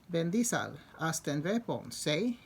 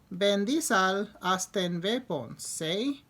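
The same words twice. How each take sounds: First: It is said with a foreign-sounding accent. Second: The same.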